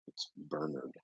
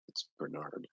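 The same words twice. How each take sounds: First: "Bernard" stressed on the first syllable, BER-nard, final r dropped; British Bernard. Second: "Bernard" stressed on the second syllable, ber-NARD; American Bernard. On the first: Streamer demos the British way to say the name, BER-nard. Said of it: "If you're British". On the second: Streamer demos the American way to say the name, ber-NARD. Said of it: "If you're American". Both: Shown as a demonstration.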